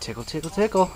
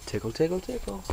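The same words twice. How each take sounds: First: Higher parrot imitation. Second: Higher, softer parrot imitation. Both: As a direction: mimic the bird saying tickle. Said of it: "That's what Teddy says".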